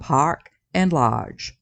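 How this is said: The R sounds are dropped, British style. "in British English it's dropped"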